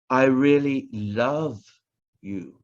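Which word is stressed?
love. The word love is stressed. The feeling is love, not mere liking. "not just like"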